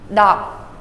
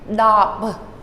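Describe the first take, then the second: First: The final B sound is cut off unreleased. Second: The final B sound is audibly released. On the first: The speaker calls it right. "Do not let the B sound come out" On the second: The speaker calls it wrong. "you might be tempted to say dop"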